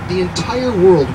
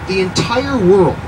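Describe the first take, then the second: No difference in how they are said.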